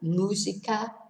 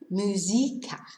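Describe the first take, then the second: First: The stress falls on the first syllable. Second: The stress falls away from the first syllable. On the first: The speaker calls it right. "needs an accent on the U" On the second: The speaker calls it wrong. "otherwise it'd be musica"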